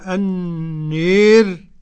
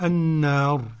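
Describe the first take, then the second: First: The long vowel is fully fronted toward e. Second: The long vowel is an open a. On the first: "وقرأ بالإمالة الكبرى" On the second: "والباقون بالفتح"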